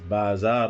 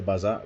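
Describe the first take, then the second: First: It has the original, non-English pronunciation. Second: It has the usual English pronunciation. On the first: The speaker calls it right. "which is how it's supposed to be pronounced" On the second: The speaker calls it wrong. "as we know, uh, we say bazaar"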